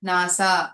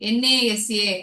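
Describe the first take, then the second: First: It is pronounced as a single word. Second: Each letter is pronounced separately. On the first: The speaker calls it right. "ஒரு பேரை உச்சரிக்கிற மாதிரி நம்ம உச்சரிக்கிறோம்" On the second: The speaker calls it wrong. "அப்படின்னு நம்ம சொல்றது இல்ல"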